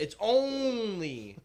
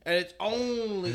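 First: "only" stretched very slow and high; stress on ONLY. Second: "only" drawn out high and loud; stress on ONLY. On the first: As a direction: really drag out "only". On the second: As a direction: lean hard on "only". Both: Shown as a demonstration. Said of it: "let me repeat that".

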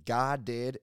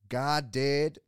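First: Loud mock scream, cut short. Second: Mock-serious, loud and higher proclamation. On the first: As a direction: belt it out as a mimicked catchphrase. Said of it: "start screaming, "God did," into the microphone". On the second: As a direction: declare it with comically grave conviction. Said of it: "gets all serious, and he looks dead in the camera".

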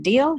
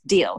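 First: "Deal" high, loud and rising; questioning offer. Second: "Deal" low and falling; settled acceptance. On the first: She closes her offer to the official, "Deal" rising high as a question. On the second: Official agrees to her offer, "Deal" falling as a firm answer. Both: Retold or imitated.

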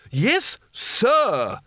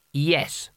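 First: High-pitched indignant snap; snapped correction. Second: Understated, bare reply; terse boy's answer. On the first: A narrator's reading. Spelter corrects the boy's manners, high and snapping. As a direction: snap it high, demanding respect. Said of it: "snapped Spelter". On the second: Acted. Boy answers the old wizard, understated and terse. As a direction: answer simply, without deference.

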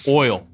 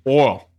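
First: "oil" with the full oy glide before the L; careful standard oil. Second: "oil" flattened to one syllable, like "ole"; Southern oil. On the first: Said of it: "If I had to say O I L". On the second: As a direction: drop the glide in "oil", Southern style. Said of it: "I would say oil". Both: Shown as a demonstration.

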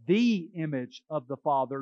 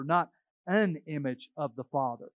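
First: "the" stressed, said as thee. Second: "an" stressed against "the". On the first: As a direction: lean on the word "the". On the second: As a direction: hit the word "an". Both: Shown as a demonstration.

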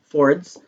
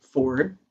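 First: Fords with an added S on the end; Michigan "Fords". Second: Said in the usual way. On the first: Shown as a demonstration. Michigander showing the local name, "Fords" with final S. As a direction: say "Fords", ending in a clear S. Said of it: "'cause there's a S on the end". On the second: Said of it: "or as we call it in Michigan".

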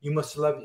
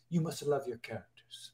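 First: Said in the usual way. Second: Put-on softly spoken, lightly Hungarian-accented "You must love your characters"; a light hint of the Hungarian mentor's accent, said much softer. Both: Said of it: "he has an accent".

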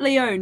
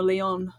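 First: "Lyonne" said lee-OWN, with a long O; long O pronunciation. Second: "Leon" said lee-ON, with a short open O; open O pronunciation. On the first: Weighing up an actress's surname, "Lyonne" with long O. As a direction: say "Lyonne" to rhyme with bone. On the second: Asking co-guest about a surname, "Leon" with open O. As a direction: say "Leon" to rhyme with on. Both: Shown as a demonstration. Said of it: "is it Lyonne or Leon".

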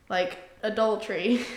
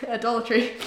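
First: Said in the usual way. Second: Laughing as she repeats it. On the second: Real, not acted.

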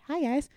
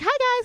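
First: Said in the usual way. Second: Way higher and louder, bubbly; gushing greeting. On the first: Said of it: "I'm like". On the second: Retold or imitated. Greeting surprised friends, high excited squeal. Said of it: "I literally was like".

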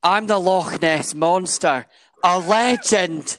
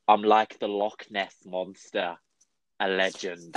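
First: Loud, slow, high Scottish proclamation; emphatic Scottish accent, raised and drawn out; proper Scottish accent. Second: Weak attempt at a Scottish accent; slow, poor imitation of a Scottish accent; failed Scottish accent. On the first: Shown as a demonstration. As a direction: declare it grandly in full Scottish. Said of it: "Let me retake that for you". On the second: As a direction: quote it in half-hearted, unconvincing Scottish. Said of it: "I can't do Scottish".

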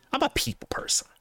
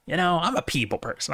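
First: Airy, high squeaky delivery; high breathy joke voice. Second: Said in the usual way. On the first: Pretend. Mock high breathy line.

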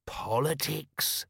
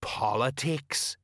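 First: Higher, drawn-out echo; slow, impressed parroting; feigned understanding. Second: Slow, meaningful single word; drawn-out, all-explaining hint; knowing. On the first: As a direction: echo it as if it explains everything. Nobby echoes, pretending to understand. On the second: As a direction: drop it like a great secret. Colon hints knowingly, tapping nose. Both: Acted.

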